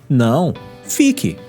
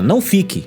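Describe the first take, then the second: First: There is a pause after não. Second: It is said without a pause after não.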